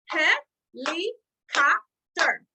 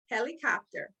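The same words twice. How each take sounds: First: Very slow and much louder, one beat per syllable; clapped syllables. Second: Said in the usual way. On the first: Shown as a demonstration. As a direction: Helicopter stretched into four loud clapped beats, HEL-I-COP-TER. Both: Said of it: "Let's clap it out together".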